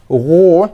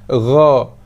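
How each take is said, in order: First: The vowel is rounded, with pushed-out lips. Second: The vowel is open, with unrounded lips. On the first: The speaker calls it wrong. "tak mau ro" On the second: The speaker calls it right. "Ra, ra, bukannya ro"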